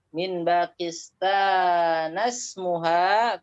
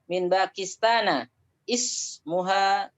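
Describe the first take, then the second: First: Pakistan runs straight into smuha without the i. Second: Ismuha starts fresh with its own opening vowel. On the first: The reading continues without stopping. "kalau mau dilanjutkan karena hamzah di situ uh, bukan qata'" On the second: The reading breaks off after Pakistan. "kalau nggak mau dilanjut"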